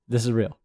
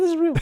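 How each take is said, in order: First: It is said in a lower podcast voice. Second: It is said in a higher off-air voice.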